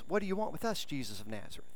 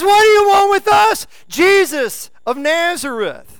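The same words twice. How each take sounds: First: It is said in a quiet, calm voice. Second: It is said in a loud, crying-out voice. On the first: The speaker calls it wrong. "He just didn't say in a church voice" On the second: The speaker calls it right. "cried out"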